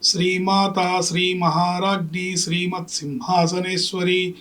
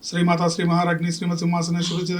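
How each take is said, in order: First: It is recited slowly and unhurriedly. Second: It is recited quickly and hurriedly. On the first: The reciter pictures the meaning of each line. The speaker calls it right. "హడావిడి లేకుండా అర్ధస్ఫురణతో" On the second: The reciter rushes without attending to the meaning. The speaker calls it wrong. "గబగబా పాఠాన్ని చదివినట్టుగా చదివి"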